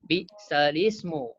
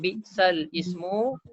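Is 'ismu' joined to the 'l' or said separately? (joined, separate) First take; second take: joined; separate. First: The l carries a vowel and links into ismu. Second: The word ismu starts separately after a break. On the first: The speaker calls it right. "dia pindah baris tu ke lam. Jadi kita baca lismu" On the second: The speaker calls it wrong. "Kita tak baca bi'sal ismu"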